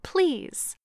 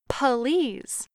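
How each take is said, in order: First: It is said plainly with no extra vowel. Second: An uh vowel is inserted after the p.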